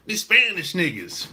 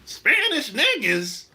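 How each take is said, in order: First: Lightly mimicked casual New York talk; imitating New York talk. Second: Higher, slow, disbelieving question; incredulous echo. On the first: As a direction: quote their casual way of talking, lightly. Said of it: "now they talk like this". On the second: Retold or imitated. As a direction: throw it back as a drawn-out question. Echoes the quote in disbelief.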